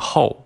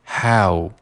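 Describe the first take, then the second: First: The vowel sounds like the Chinese syllable hao. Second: The vowel is a wide-open English ow. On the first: The speaker calls it wrong. "不要读成how 啊，不是中文的这个浩大的浩" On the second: The speaker calls it right. "把嘴要张开，读成how"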